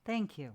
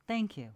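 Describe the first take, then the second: No difference in how they are said.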